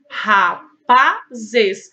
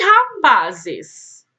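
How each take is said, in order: First: "Rapazes" in three loud beats, "Ra, pa, zes"; split into syllables. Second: Said in the usual way. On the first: Shown as a demonstration. Teacher confirming three syllables, "Rapazes" syllable by syllable. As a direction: pause after each syllable of "Rapazes". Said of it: "três sílabas". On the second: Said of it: "separar as palavras em sílabas".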